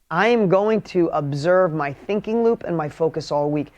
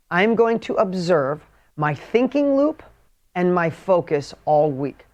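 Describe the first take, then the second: First: Said in the usual way. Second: Slow, spaced-out dictation pace. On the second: Shown as a demonstration. Coach dictates the weekly assignment to followers, slowly. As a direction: dictate it slowly so they can write. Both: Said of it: "seriously, write this down for me".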